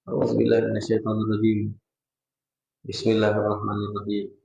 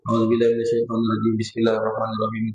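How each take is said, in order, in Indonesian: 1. Ada jeda singkat yang memisahkan kedua frasa. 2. Kedua frasa itu menyambung tanpa jeda. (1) "kalau kita diam sejenak dapat satu sunnah" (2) "Jangan disambung... Ketinggalan satu sunnah kita"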